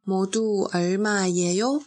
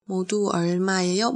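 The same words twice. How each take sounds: First: Said in the usual way. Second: Quicker, run together; fast repeat. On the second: Shown as a demonstration. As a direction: say it again briskly. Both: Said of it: "那你可以说".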